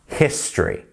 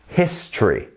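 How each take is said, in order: First: The word is said with two syllables. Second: The same.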